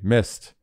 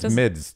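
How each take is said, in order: First: The word is said without a d sound. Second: The word is said with a d sound. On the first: The speaker calls it wrong. "You say mist. That's easy" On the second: The speaker calls it right. "But it's not mist. It's midst"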